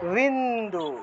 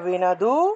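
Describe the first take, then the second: First: The n runs straight into the d. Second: A full vowel follows the n sound. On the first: "নয়ের নিচে হসন্ত আছে" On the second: "প্রত্যেকটা অক্ষরকে পূর্ণ উচ্চারণ করব"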